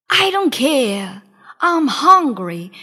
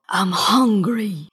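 First: Louder, slow genie shout; a stubborn genie's loud shout. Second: Low, slow genie growl; deep slow monster growl. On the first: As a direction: bellow it back impatiently. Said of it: "shouted the genie". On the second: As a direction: rumble it like a starving giant. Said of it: "he growled". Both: A narrator's reading.

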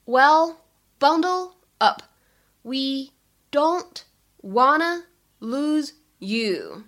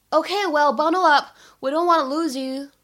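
First: Slow, separate words with pauses between; deliberate language-teacher breakdown. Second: Said in the usual way. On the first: Shown as a demonstration. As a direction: stretch out each word, pausing after it. Teacher breaks line down word by word.

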